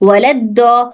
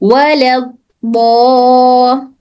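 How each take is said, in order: First: The sound is said quickly without holding. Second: The sound is held for a long time. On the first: "अब मैं जल्दी पढ़ रही हूँ" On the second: "ये मैं रोक के पढ़ी थी"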